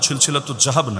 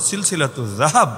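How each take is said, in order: First: The second word begins with a j sound. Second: The second word begins with a z sound. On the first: The speaker calls it wrong. "সিলসিলাতু জাহাব না" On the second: The speaker calls it right. "উচ্চারণটাও শুদ্ধ করে করা যায়"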